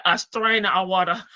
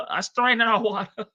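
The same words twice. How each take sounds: First: Said in the usual way. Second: Repeats "strain" through a laugh. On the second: Shown as a demonstration.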